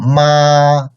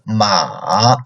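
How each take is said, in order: First: The pitch stays high and level. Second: The pitch stays very low. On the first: "the first tone is very high and flat" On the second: "Third tone, lowest"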